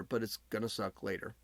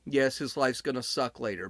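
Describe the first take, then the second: First: Quiet, heavy afterthought; dropped to a hush. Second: Said in the usual way. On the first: Shown as a demonstration. Telling viewers his trouble only comes later, in a dropped hush. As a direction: repeat it much softer and lower, letting later sink.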